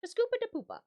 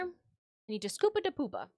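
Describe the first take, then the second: First: High, sing-song mock Swedish Chef; lightly voiced Muppet chef babble. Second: Said in the usual way. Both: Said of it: "in the voice of the Swedish chef from the Muppets".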